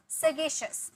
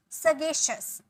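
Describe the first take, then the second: No difference in how they are said.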